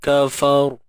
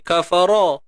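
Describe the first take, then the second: First: The word ends on the consonant r. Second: The word ends with an extra vowel sound. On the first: The speaker calls it right. "Matikan ra ni. ... ra ni kena dibaca dengan tebal" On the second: The speaker calls it wrong. "dia tak jadi kafara"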